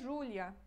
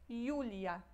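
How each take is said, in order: First: The name is said with Portuguese pronunciation. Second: The name is said with Polish pronunciation. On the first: The speaker calls it wrong. "Não é Julia" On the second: The speaker calls it right. "Em polonês é Julia"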